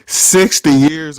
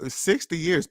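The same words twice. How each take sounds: First: Loud drawn out. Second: Quiet repeat. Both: Real, not acted.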